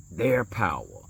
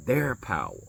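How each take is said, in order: Both takes have the same delivery.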